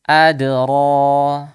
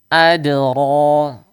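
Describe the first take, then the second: The two takes are said the same way.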